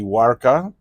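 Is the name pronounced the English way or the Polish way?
English. The name is said with English pronunciation. "the English pronunciation would be"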